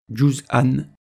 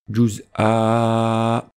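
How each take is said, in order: First: The word is said in its full connected form. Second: The word is said in its shortened pausal form. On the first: The reciter continues into the next word. "sans faire de pause" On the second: The reciter stops after this word. "comme si on faisait une pause"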